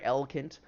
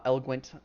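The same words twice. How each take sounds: First: Eloquent said as ELL-uh-kent, dropping the w sound; slip on eloquent. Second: Eloquent said properly as ELL-uh-kwent with the w sound; corrected eloquent. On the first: GM describing the NPC trips over eloquent as ELL-uh-kent. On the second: GM correcting himself says eloquent as ELL-uh-kwent. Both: Shown as a demonstration. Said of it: "not eloquent".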